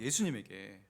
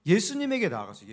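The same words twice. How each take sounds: First: 예수님에게 repeated much lower and softer; soft echo. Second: Said in the usual way. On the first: Shown as a demonstration. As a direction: drop low and quiet on 예수님에게. (예수님에게를 낮고 조용하게)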